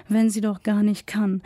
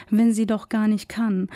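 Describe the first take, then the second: No difference in how they are said.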